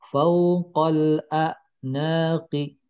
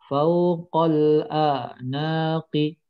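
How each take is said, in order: No difference in how they are said.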